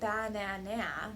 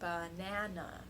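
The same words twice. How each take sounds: First: All three syllables are stressed equally. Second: Only the middle syllable is stressed. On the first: The speaker calls it wrong. "That would be stressing all three syllables" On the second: The speaker calls it right. "only the middle syllable is stressed"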